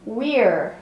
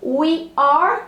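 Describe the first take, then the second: First: We're as one falling syllable; short contracted we're; contraction. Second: We are as two full words; careful full We are; full form. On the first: Teacher shows the contraction we're. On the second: Teacher shows We are before contracting. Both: Shown as a demonstration. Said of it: "como que fica na contração".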